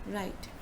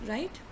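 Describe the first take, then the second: No difference in how they are said.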